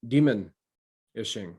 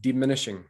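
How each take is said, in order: First: "demon-ishing" drawn out slowly, split as demon, then ishing; slowed-down word. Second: Said in the usual way. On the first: Shown as a demonstration. Co-host breaking down a word for listeners, "demon-ishing" said slowly in two parts. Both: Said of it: "Say it slower".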